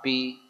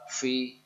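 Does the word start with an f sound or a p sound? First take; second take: p sound; f sound. First: It begins with a p sound. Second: It begins with a breathy f sound. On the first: The speaker calls it wrong. "tidak pa, pi, pu" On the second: The speaker calls it right. "Jelas fa, fi, fu"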